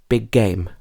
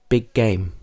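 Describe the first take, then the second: No difference in how they are said.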